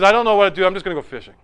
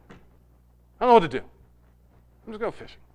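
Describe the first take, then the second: First: Said in the usual way. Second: Hushed, trailing to a whisper; broken, defeated. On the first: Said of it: "Peter is a broken man". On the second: Retold or imitated. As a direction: give up, almost voiceless. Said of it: "So broken that when the time came".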